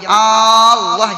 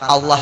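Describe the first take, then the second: First: The first vowel is drawn out long. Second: The second vowel is drawn out long. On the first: The speaker calls it wrong. "Jangan memanjangkan alifnya Allah" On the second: The speaker calls it right. "la-nya panjang, oke"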